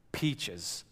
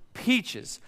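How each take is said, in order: First: Lower, soft dreamy Peaches; mock-dreamy wish for Peaches; dreamy longing. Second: Said in the usual way. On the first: Wishing aloud to his wife.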